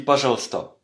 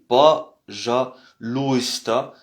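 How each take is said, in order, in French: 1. La voyelle du milieu est supprimée, ce qui raccourcit le mot. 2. Chaque syllabe est prononcée en entier. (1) "mais on dit pajalsta" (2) "c'est écrit pajalosta"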